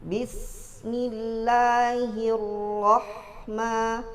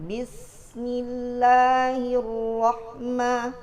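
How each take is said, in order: The two takes are said the same way.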